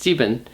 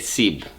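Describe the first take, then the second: First: The word has two syllables, sie-ben. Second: The word has one syllable, sieb. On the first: This is the full form used on its own. "seven is sieben" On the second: This is the shortened form used inside compounds. "you say sieb, sieb, instead of the full sieben"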